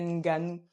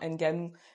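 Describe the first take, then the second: First: The first N is blended into the next sound. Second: The first N is said like its letter name. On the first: The speaker calls it right. "Tu le prononces avec, bah, du coup, euh, une phonétique. Et du coup, ça fait Nganou" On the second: The speaker calls it wrong. "tu ne prononces pas, pardon, Nganou. Le N, c'est pas un N que tu lis comme dans l'alphabet"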